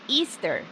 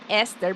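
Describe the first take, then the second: First: The word sounds like the holiday Easter. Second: The word sounds like the name Esther. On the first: The speaker calls it right. "but Easter" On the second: The speaker calls it wrong. "It's not Esther"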